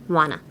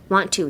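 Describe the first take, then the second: First: The two words blend into one short word. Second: Both words are said fully, with a clear t. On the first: The speaker calls it right. "wanna ですね" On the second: The speaker calls it wrong. "Want to じゃなくて"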